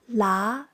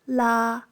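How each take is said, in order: First: The pitch rises up to high. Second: The pitch stays level in the middle.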